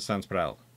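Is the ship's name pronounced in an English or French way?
English. The name is pronounced the English way. "the British pronounce it"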